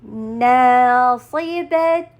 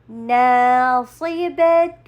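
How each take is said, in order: The two takes are said the same way.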